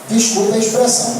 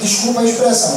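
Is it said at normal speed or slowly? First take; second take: slowly; normal speed. First: It is said slowly and deliberately. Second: It is said at normal speed.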